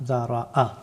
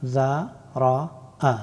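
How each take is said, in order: First: জা রা আ read smoothly as one word; teacher reads the whole word after sounding it out; joined reading. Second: জা রা আ drawn out syllable by syllable; teacher sounds the word out slowly. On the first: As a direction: say জা রা আ at normal pace, joined. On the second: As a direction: stretch each syllable জা, রা, আ. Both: Shown as a demonstration. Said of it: "কয়েকটা উদাহরণ দেখে নেই".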